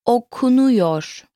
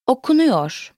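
First: Okunuyor drawn out syllable by syllable; slow teaching model. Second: Said in the usual way. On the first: Shown as a demonstration. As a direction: stretch okunuyor slowly for a learner to copy. Teacher models word slowly, then normally.

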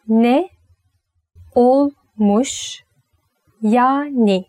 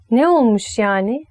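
First: "Ne olmuş yani" broken into slow, separate words; slow, split angry. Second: Said in the usual way. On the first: Shown as a demonstration. Teacher showing a slow, defiant "Ne olmuş yani". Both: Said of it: "it sounds angry".

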